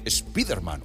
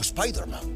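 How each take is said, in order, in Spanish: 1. El nombre se pronuncia con sonidos españoles. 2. El nombre se pronuncia con sonidos ingleses.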